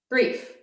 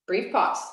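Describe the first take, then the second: First: Brief lifted high and short; Brief said high and clipped for emphasis; stressed brief. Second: Said in the usual way. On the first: Shown as a demonstration. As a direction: hit Brief with a raised pitch.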